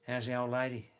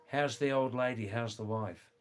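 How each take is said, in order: First: Put-on Australian slur, "How's the old lady" run together; broad Aussie vowels on "old lady"; broad Australian accent. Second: Said in the usual way. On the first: Shown as a demonstration. Showing listeners how Australians ask after the wife, broad Australian accent. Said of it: "the other half talk like this". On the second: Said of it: "that actually means".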